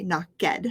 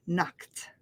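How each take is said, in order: First: Knocked split into two syllables, "knock-ED"; wrong two-syllable ending. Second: Knocked in one syllable, "nokt"; quick T ending. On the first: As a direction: pronounce the ed in knocked as a full "ed" syllable. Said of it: "we're not going to say". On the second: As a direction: end knocked on a quick, soft T. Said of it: "It's a real quick t". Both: Shown as a demonstration.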